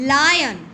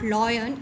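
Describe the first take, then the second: First: The first vowel sounds like 'eye'. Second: The first vowel sounds like 'aw'. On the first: The speaker calls it right. "It is लायन" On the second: The speaker calls it wrong. "बहुत से लोग इसको लॉयन बोलते हैं। It is not लॉयन"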